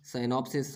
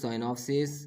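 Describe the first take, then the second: First: साइनॉप्सिस with a short final "-sis"; singular -is ending. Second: साइनॉप्सिस with a long final "-sees"; plural -es ending. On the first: Teacher giving the singular for pupils, short "-sis" in साइनॉप्सिस. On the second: Teacher giving the plural for pupils, long "-sees" in साइनॉप्सिस. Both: Shown as a demonstration. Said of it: "आईएस को ईएस में बदलने से".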